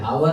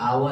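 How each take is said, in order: First: The word begins with an h sound. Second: The word begins with a vowel sound. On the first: The speaker calls it wrong. "हावर नहीं" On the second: The speaker calls it right. "आवर है"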